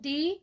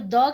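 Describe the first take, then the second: First: The vowel is a long 'ee' sound. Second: The vowel is a short 'uh' sound. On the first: The next word starts with a vowel sound. "दी केते बेले कहसु जेते बेले vowel sound एसी" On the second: The next word starts with a consonant sound. "द केते बेले लागसी जेते बेले consonant थिसी"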